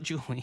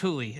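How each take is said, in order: First: The name begins with a J sound. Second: The name begins with an H sound. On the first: The speaker calls it wrong. "and not Julie" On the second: The speaker calls it right. "I think it's Hooli"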